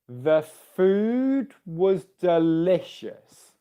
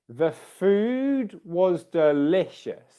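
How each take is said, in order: The two takes are said the same way.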